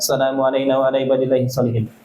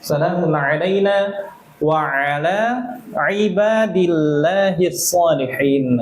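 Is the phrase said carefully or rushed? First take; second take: rushed; careful. First: It is said fast and drops the ain sound. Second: It is said carefully with every letter clear. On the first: The speaker calls it wrong. "Kadang kita mau cepet-cepet kan" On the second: The speaker calls it right. "Mau cepet-cepet gitu jangan"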